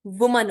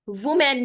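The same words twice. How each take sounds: First: वुमन with a weak final vowel; correct singular. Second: वुमेन ending like men; wrong pronunciation. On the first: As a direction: end वुमन on a light mun. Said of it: "वुमन होता है". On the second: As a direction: stress a clear men in वुमेन. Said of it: "वुमेन नहीं होता". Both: Shown as a demonstration.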